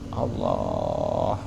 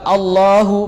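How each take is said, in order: First: The word ends on a bare h sound. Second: The word ends with an added u vowel. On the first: The speaker calls it right. "haknya Allah itu disukun" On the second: The speaker calls it wrong. "Bukan bukan mengucapkan Allahu"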